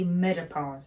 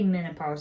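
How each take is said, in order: First: The second consonant is a t sound. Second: The second consonant is an n sound. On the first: The speaker calls it wrong. "I say metapause" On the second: The speaker calls it right. "I don't say menopause"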